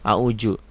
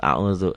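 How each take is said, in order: First: The middle consonant is a j-like sound. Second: The middle consonant is a soft z-like sound. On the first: The speaker calls it wrong. "Banyak kok yang salah baca Qur'annya" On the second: The speaker calls it right. "dal titik jadi zal auzu"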